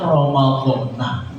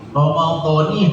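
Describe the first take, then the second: First: The final syllable ends with an 'a' vowel. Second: The final syllable ends with an 'i' vowel. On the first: The speaker calls it wrong. "jangan Ramadhana" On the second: The speaker calls it right. "Nunnya dikasrohkan"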